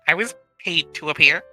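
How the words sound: The line is delivered in a hesitant, unsure tone. The speaker calls it wrong. "that one sounded hesitant"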